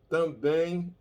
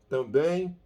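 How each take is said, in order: No difference in how they are said.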